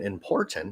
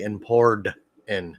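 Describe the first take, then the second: First: The middle consonant is a clear T sound. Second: The middle consonant is a D sound. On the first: The speaker calls it right. "instead of saying important" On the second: The speaker calls it wrong. "they say import in with a D"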